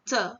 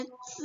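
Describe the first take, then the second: First: C as "ts" with an open, light "uh". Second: C as "ts" with a tight closed vowel; closed-teeth C. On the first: Teacher contrasting Z plus E with Z plus I, open demo. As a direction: say C with teeth apart. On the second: Teacher contrasting Z plus I with Z plus E, closed demo. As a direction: say C with teeth nearly shut. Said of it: "Z sama I itu kan bacanya". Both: Shown as a demonstration.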